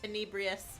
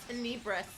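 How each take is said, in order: First: The name ends in an added 'ius' syllable. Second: The name ends in a short 'is' sound. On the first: The speaker calls it wrong. "saying Tenebrius" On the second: The speaker calls it right. "it's Tenebris"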